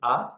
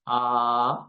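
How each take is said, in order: First: The vowel is held very briefly. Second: The vowel is prolonged for an extended time. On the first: "Hraswa Dirgha Pluta. Hraswa is A"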